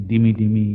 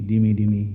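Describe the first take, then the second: The two takes are said the same way.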